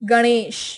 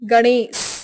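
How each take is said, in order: First: It is said with standard Hindi pronunciation. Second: It is said with a Bihari regional accent. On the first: "Hindi उच्चारण" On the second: "Bihari उच्चारण"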